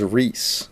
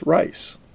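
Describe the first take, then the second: First: The vowel sounds like 'ee' in 'see'. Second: The vowel sounds like 'eye' in 'rice'. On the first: The speaker calls it wrong. "I was chastised for pronouncing that name as Reese" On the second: The speaker calls it right. "told that the family pronounced it as Rice"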